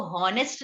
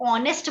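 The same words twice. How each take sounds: First: हॉनेस्ट with an audible H at the start; sounded H. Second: ऑनेस्ट starting on the vowel ऑ, no H sound; silent H. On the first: Teacher showing students the mistaken honest, H sounded. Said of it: "इसको हॉनेस्ट नहीं बोलते". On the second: Teacher showing students how honest is said, silent H. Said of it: "इसको ऑनेस्ट बोलते हैं". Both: Shown as a demonstration.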